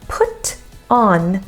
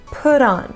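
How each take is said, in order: First: The t is crisp and the words are separate. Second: The t is a quick flap linking the words. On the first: The speaker calls it wrong. "is too distinct" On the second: The speaker calls it right. "Americans say put on"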